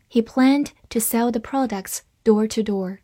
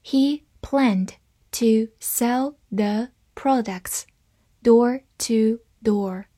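First: Said in the usual way. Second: Slow, separated words; slow reading. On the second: Shown as a demonstration. Teacher leads learners through the sentence, slow reading. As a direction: read it word by word, slowly. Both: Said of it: "好，慢慢来读".

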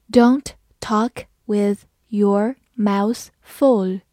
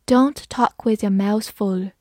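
First: Slow, word by word; slow read-along. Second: Said in the usual way. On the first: Shown as a demonstration. Teacher leading learners through the example, slow and separated. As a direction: leave a gap after every word. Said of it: "好，慢慢来读". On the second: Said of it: "慢慢来读".

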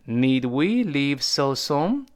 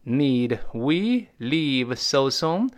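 First: Said in the usual way. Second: Very slow, word-by-word question; drawn-out example with questioning rise; slow model reading. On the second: Shown as a demonstration. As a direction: spell out each word slowly for learners. Teacher repeats example slowly.

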